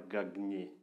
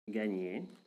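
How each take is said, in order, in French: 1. Le G et le N se prononcent séparément. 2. Le GN est un seul son doux, proche d'un N. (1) "ce n'est pas gagner" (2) "comme un N, mais un peu doux"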